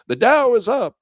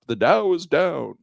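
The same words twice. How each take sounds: First: "The Dow is up" high and loud, UP held high; upbeat intonation. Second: "the Dow is down" drawn out slowly, DOWN falling; slow, sinking fall on DOWN; downbeat intonation. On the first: Radio announcing the market to drivers, upbeat intonation. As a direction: sing out "The Dow is up" like good news. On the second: Radio announcing the market to drivers, downbeat intonation. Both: Shown as a demonstration. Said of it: "intonation of my voice".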